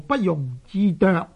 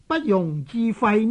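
First: The last syllable is pronounced zoek. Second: The last syllable is pronounced fai. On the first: The speaker calls it wrong. "可能有九个呢都读做不容置啄" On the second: The speaker calls it right. "一句所谓不容置喙这句成语"

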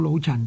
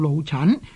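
First: The last syllable keeps a low level tone. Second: The last syllable is said with a rising tone. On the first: The speaker calls it wrong. "就唔叫老陈" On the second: The speaker calls it right. "就叫老陈"

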